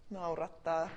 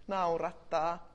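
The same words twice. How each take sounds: The two takes are said the same way.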